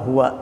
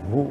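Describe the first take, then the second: First: The word ends with a full final vowel. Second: The final vowel is dropped, leaving one syllable.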